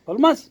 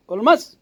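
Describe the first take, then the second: No difference in how they are said.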